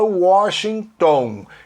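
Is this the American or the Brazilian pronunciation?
Brazilian. It is said with a Brazilian pronunciation. The speaker calls it wrong. "O brasileiro fala"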